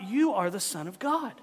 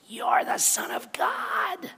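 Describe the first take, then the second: First: It is said in a normal voice. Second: It is screamed in a demonic voice.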